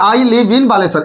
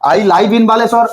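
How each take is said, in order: First: 'Live' has a short vowel, rhyming with give. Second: 'Live' has a long vowel, rhyming with five. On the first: The speaker calls it right. "ताकू मु पढिबी कोन लिव" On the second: The speaker calls it wrong. "It's completely wrong sentence"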